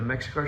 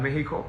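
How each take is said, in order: First: Said in the usual way. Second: Mexico said the Spanish way, MEH-hee-ko; Spanish pronunciation. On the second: Shown as a demonstration. Readying a speech for the Mexico show, Spanish pronunciation of Mexico. Switches English name to Spanish.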